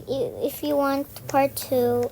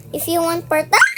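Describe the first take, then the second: First: Said in the usual way. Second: Raised voice bursting into a yell; shouting. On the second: Real, not acted. Player pitching part two to viewers, shouting. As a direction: shout it, breaking off into a scream. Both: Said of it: "Ba't pa ako sumisigaw?".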